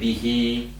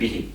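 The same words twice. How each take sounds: First: The final vowel is drawn out long. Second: The final vowel is kept short. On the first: The speaker calls it right. "We say bihi" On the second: The speaker calls it wrong. "we don't say bihi"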